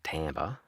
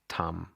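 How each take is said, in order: First: It is said with English-style pronunciation. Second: It is said with Japanese-style pronunciation. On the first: The speaker calls it wrong. "so it's not Tamba" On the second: The speaker calls it right. "this is Japanese pronunciation"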